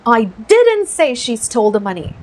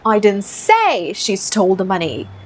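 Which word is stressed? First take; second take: didn't; say. First: The stress falls on the word didn't. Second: The stress falls on the word say. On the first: It was never said at all. "ये didn't पे focus लगाते हैं" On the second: It was implied but not said. "डालते हैं stress से में"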